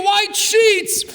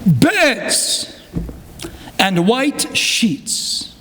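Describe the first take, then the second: First: Emphatic. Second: Faltering voice. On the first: Real, not acted. Rabbi exclaims the survivor's gratitude. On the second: Retold or imitated. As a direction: let the voice break and fade on the last words. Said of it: "His voice faltered".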